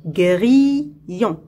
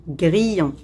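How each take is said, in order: First: "Grillon" drawn out and split gri, llon; syllable by syllable. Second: Said in the usual way. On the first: Shown as a demonstration. Teacher locating a sound for pupils, "Grillon" in two separated syllables. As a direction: pause between the syllables of "Grillon". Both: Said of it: "Dans la deuxième syllabe".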